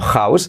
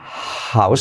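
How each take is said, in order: First: The opening h is not a breathy aspiration. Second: The opening h is a breathy aspiration. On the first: The speaker calls it wrong. "y no house" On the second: The speaker calls it right. "la H que se aspira"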